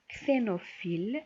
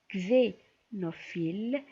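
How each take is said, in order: First: The x is pronounced as 'ks'. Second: The x is pronounced as 'gz'. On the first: "انا غادي نبدا بكس" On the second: "سوا بكز"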